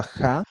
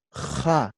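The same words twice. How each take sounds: First: Said in the usual way. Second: "ja" with a drawn-out rasping J; scraped J. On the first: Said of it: "Igualito, parecido a ja". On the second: Shown as a demonstration. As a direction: scrape the J of "ja" in the throat.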